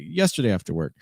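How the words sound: The word after carries the main stress. "Even if you intended to stress after"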